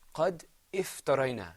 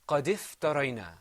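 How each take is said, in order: First: A glottal stop and vowel come before the f. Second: The d runs straight into the f sound. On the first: The speaker calls it wrong. "the incorrect way to say this would be" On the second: The speaker calls it right. "I pronounced the dal and I went straight into the fa. I didn't pronounce that alif"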